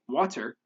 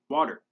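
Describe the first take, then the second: First: The middle consonant is a full t. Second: The middle consonant is a quick tap. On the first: The speaker calls it wrong. "we don't say water" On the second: The speaker calls it right. "with the tap sound"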